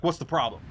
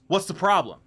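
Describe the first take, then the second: First: Mildly aggressive imitation of a customer; retold demand, only lightly pushed. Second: Aggressive. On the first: Customer to staff reading the guidelines, mildly aggressive. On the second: Retold or imitated. Customer to shop staff checking the regulations, aggressive. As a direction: imitate an aggressive customer, higher and louder. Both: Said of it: "he says it aggressively".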